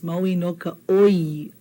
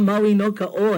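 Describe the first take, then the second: First: Oi ending in a long "ee" in Maui no ka oi; clear final E sound. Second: Oe ending in "eh" in Maui no ka oe; mispronounced oe. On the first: Teacher correcting the class's pronunciation, clear "ee" ending on oi. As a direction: slowly, finish oi on a drawn-out "ee". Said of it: "hear that E sound at the end". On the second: Teacher showing class the common slip, mispronounced oe. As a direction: end oe on an "eh" sound, not "ee". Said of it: "it's not Maui no ka oe". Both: Shown as a demonstration.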